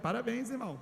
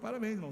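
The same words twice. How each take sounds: First: It is said in a sincere tone. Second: It is said in an ironic tone.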